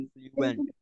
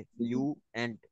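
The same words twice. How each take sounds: First: Word said high. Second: Syllables drawn out. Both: Shown as a demonstration. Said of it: "fluent syllable दो हो गए".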